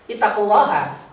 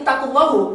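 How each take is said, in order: First: The final vowel is an 'a' sound. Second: The final vowel is a 'u' sound. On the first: The listeners are told to be mindful of God. The speaker calls it right. "itu artinya bertakwalah kamu kepada Allah" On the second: God is told to be mindful. The speaker calls it wrong. "Allah bertakwalah"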